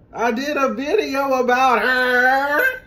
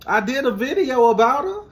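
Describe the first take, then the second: First: High, slow sing-song copy of the singer. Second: Said in the usual way. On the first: Shown as a demonstration. Imitating the singer for fans. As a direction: drawl it out like the diva. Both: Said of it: "who does that sound like".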